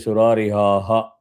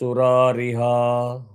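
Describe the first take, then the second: First: The word ends with an added breathy 'ha' syllable. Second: The word ends without an added breathy syllable. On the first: The speaker calls it wrong. "by default you will end up in saying" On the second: The speaker calls it right. "there is no visarga here"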